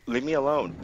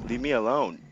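The two takes are said the same way.

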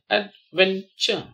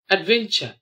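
First: "adventure" slowly as ad, ven, ture; syllable by syllable. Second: Said in the usual way. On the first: Shown as a demonstration. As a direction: space out the three syllables of "adventure". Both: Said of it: "spell the word".

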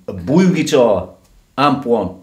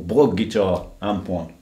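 First: Blug said as Bloog; long oo in Blug, before guitar; German-style Blug. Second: Short vowel in Blug; English-style Blug. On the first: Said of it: "I think it's a Blue guitar". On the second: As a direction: Blug anglicised, before guitar. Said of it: "as they say in England". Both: Shown as a demonstration.

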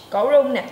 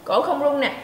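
First: Cổ rung nè said louder and firmer. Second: Said in the usual way. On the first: Shown as a demonstration. Teacher contrasts the voiced throat with the silent one. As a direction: put more voice into Cổ rung nè.

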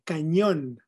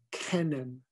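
First: Said in the usual way. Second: "cannon" as English KAN-un, no ñ; anglicized pronunciation. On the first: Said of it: "Se dice cañón". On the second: Shown as a demonstration. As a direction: say "cannon" American-style, stressed on the first syllable. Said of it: "no cannon".

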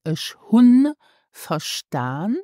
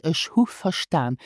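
First: Ich hun verstaan with the n on hun clearly said, slowly; careful form keeping the n in hun; full n. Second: Ich hu verstaan with hu said without the n; normal-speed form, hu not hun; n dropped. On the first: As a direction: pronounce hun with its final n. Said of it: "First I said". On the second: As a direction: drop the n, say hu. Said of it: "and now I said". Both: Shown as a demonstration.

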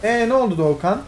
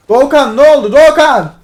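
First: Said in the usual way. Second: Much louder and higher, yelling the name; exasperated shout. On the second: Real, not acted. Streamer yelling at teammate Doğukan over his mistake. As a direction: explode at the teammate's blunder. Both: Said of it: "Bağırtma beni".

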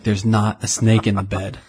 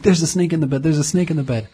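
First: Said in the usual way. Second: High, urgent warning, not shouted; mild retold panic. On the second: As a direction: imitate a sleepwalker's alarm, pitched up. Retelling sleepwalking panic to wife.

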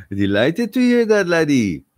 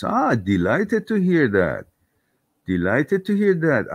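First: Higher, louder hammed-up Irish-Scottish brogue. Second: Irish lilt. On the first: Thanking a viewer, in a hammed-up Irish-Scottish brogue. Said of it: "It's Scottish, isn't it? It's a mix". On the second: Pretend. Thanking a viewer for good news, lightly Irish. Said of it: "I constantly go Irish".

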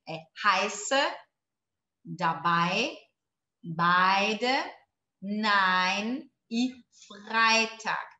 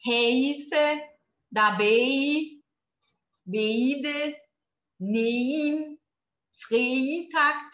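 First: Heiße dabei beide nein Freitag with ei said as "ai"; correct pronunciation. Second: Heiße dabei beide nein Freitag said with ei as "e-i", spelled-out vowels; wrong pronunciation. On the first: Teacher giving students the right version after the wrong one, "ai" sound. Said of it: "Tá errado". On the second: Teacher showing students the wrong way, exaggerated wrong vowels. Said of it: "como não pronunciar". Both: Shown as a demonstration.

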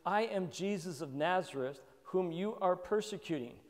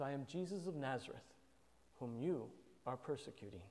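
First: Said in the usual way. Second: Much softer, gentle and lowly; humble and soft. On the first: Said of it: "the Lord's response is humility". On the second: Retold or imitated. Preacher voicing Jesus answering Paul, soft and humble. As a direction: say it meekly, drawing him in. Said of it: "He just says".

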